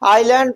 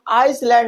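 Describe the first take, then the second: First: The s sound is silent. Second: The s sound is pronounced. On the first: The speaker calls it right. "आइलैंड पढ़ते हैं" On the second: The speaker calls it wrong. "हम आइसलैंड नहीं पढ़ते हैं"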